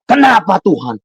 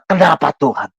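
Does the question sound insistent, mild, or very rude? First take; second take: insistent; mild. First: The question is asked in a higher, insistent pitch. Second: The question is asked in a mild, lower pitch.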